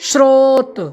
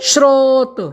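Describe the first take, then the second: No difference in how they are said.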